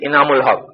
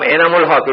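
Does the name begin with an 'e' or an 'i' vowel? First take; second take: i vowel; e vowel. First: The first vowel is a close 'i' sound. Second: The first vowel is an open 'e' sound. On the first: The speaker calls it right. "It should be ইনামুল Haque" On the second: The speaker calls it wrong. "It is wrong"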